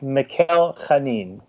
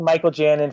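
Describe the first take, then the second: First: The surname starts with a guttural throaty sound. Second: The surname starts with a J sound. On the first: The speaker calls it right. "It's Mikhail Chanin. Like a little Hebrewish Chanin" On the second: The speaker calls it wrong. "I've been saying Michael Janin for a long time"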